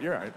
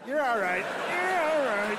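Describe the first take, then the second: First: Said in the usual way. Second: Put-on higher and higher, cooing "You're all right" like to a toddler; soothing a fallen toddler. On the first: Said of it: "You're like". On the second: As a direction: coo "You're all right" as if lifting a crying child. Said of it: "like, when a toddler falls".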